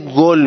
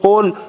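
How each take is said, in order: First: It starts with a hard 'g' sound. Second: It starts with a deep back 'q' sound. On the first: "یک ترک زبانی ... یک مقدار شبیه گل میگه" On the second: "به جای قل"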